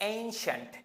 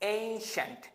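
Both takes have the same delivery.

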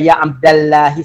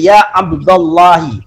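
First: The L sound is thin and light. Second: The L sound is thick and heavy. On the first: The speaker calls it wrong. "Bukan ya Abdallahi, salah" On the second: The speaker calls it right. "Dia lam tu ditebalkan"

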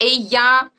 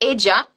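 First: The middle consonant sounds like English y. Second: The middle consonant sounds like English j. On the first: This is how it is said in Spain. "which in Spain is normally pronounced like y" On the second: This is how it is said in parts of Latin America. "they pronounce these two letters like j"

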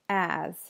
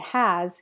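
First: The word starts without an h sound. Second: The word starts with an h sound. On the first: "has can sound like as" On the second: "has can sound like as"

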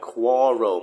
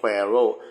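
First: The first vowel is a rounded 'aw' sound. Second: The first vowel is an open 'ah' sound. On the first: The speaker calls it right. "เห็นไหมเป็นสระอ" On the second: The speaker calls it wrong. "ไม่ใช่"

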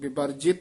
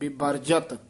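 First: The third syllable is said with an 'i' vowel. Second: The third syllable is said with an 'a' vowel. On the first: The speaker calls it wrong. "ਵਿਵਰਜਿਤ ਨਹੀਂ ਕਹਿਣਾ" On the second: The speaker calls it right.

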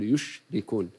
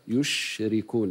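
First: The sh sound is cut short with little hissing. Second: The sh sound is held long with clear hissing. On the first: The speaker calls it wrong. "لا نقول يشركون، لا تقم بإنقاص زمنه" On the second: The speaker calls it right. "حرف ساكن رخو يحتاج إلى زمن كي يسمع"

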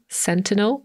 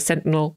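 First: British accent, each syllable clearly pronounced. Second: American accent, compressed and clipped syllables. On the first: "Gdybyśmy je wymówili po brytyjsku" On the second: "brzmi dziwnie w wersji amerykańskiej, bo jest takie bardzo zbite, takie skrócone"

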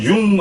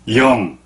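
First: The vowel sounds like 'oo' in 'moon'. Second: The vowel sounds like 'uh' in 'cup'. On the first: The speaker calls it wrong. "하면 융 아닙니까? 라고도 할 수가 있지만, 예, 그건 아니고" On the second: The speaker calls it right. "이렇게 발음하시면 되겠습니다"

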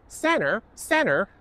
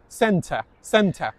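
First: It is said in an American accent. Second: It is said in a British accent.

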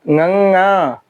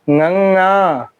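No difference in how they are said.

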